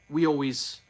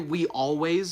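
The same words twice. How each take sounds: First: Vowels are dropped and the words slur together. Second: Every vowel is pronounced fully and clearly. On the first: "I say we always that is like the closest to what I've been saying" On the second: "I don't say we always"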